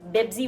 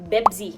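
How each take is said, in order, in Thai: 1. คำนี้ขึ้นต้นด้วยเสียง b 2. คำนี้ขึ้นต้นด้วยเสียง b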